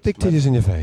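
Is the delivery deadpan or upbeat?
deadpan. It is said in a flat, expressionless way. "you got the deadpan guys"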